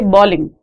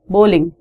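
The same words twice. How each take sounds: First: The first vowel is not a clear, rounded 'oh' sound. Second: The first vowel is a clear, rounded 'oh' sound. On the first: The speaker calls it wrong. "people pronounce it wrong. People say bowling" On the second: The speaker calls it right. "It's not bowling, it's bowling"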